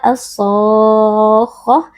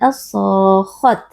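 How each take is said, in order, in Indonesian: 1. Kata ini berakhir dengan bunyi h lembut. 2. Kata ini berakhir dengan bunyi t. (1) "dibaca as-sakhah" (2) "bukan as-sakhat"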